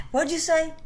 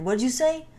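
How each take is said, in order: First: High, pushy mock dad demanding; high-pitched mock father grilling his kid; stern dad, high and insistent. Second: Demanding dad. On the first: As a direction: press him to repeat it, voice raised high. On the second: Retold or imitated. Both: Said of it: "he would ask me to say it again".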